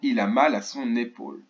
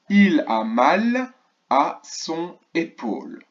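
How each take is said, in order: First: The words are linked together in one flow. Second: The words are said separately, without linking.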